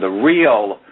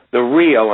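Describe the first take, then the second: First: Said in the usual way. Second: Real pushed out a bit louder; stress on real. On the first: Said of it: "I emphasize that word real". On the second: Shown as a demonstration. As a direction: lean on the word real. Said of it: "and I emphasize that word real".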